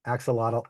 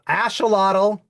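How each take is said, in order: First: "Axolotl" with a hard KS sound; "Axolotl" as AK-suh-lah-tul; English pronunciation. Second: "axolotl" with the X as SH, louder and higher; "axolotl" as ASH-uh-lah-tul, emphatic; Spanish-style pronunciation. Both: Shown as a demonstration. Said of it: "Quite difficult".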